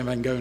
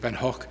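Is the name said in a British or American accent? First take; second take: American; British. First: It is said with an American English accent. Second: It is said with a British English accent.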